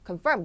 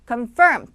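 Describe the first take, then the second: First: Both syllables are said evenly, without stress. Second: The stress is on the second syllable. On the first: The speaker calls it wrong. "confirm은 거의 뭐 한국어라고 보면 되겠고요" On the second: The speaker calls it right. "이 음절에다 무조건 강세를 주셔야 됩니다"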